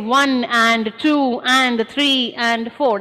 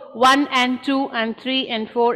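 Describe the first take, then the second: First: Each 'and' is fully pronounced, taking longer. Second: Each 'and' is squished between the numbers. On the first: The speaker calls it wrong. "I don't say one and two and three and four. That would take a longer time" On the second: The speaker calls it right. "I squish that"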